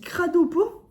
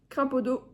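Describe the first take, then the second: First: The name begins with 'crado' and ends in 'po'. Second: The name begins with 'crapo' and ends in 'do'. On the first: This is the official way to say it. "ça se dit Cradopo" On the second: It sounds like the word for toad. "J'ai toujours dit Crapodo"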